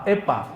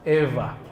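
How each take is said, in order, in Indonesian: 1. Konsonan tengahnya adalah bunyi p yang keras. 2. Konsonan tengahnya adalah bunyi lembut mirip v. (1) "Bukan pula pa" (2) "waw di sana dibacanya semi-semi V. Antara waw dan fa"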